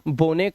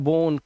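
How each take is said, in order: First: The final e is pronounced as a syllable. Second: The final e is silent. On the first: The speaker calls it wrong. "अब ऐसा नहीं पढ़ सकते आप" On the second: The speaker calls it right. "इसे ओ से पढ़ना है"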